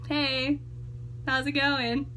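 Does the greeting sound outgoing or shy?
shy. The greeting sounds quiet, reserved and shy. The person holds back with strangers. "I'm just more like"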